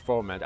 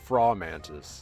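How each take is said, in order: First: The first syllable sounds like 'foe'. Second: The first syllable sounds like 'fraw'. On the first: This is the corrected way of saying it. The speaker calls it right. "Or Foe Mantis" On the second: This is the speaker's habitual way of saying it. The speaker calls it wrong. "I always called it Fraw Mantis"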